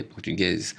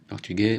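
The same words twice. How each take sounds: First: Portugaise ending in a voiced z; portugaise, softer, with the last consonant heard; feminine pronunciation. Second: Portugais ending on è, silent s; masculine pronunciation. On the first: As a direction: sound the final z in portugaise. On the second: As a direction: leave the final s of portugais silent. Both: Shown as a demonstration. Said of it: "prononciation différente".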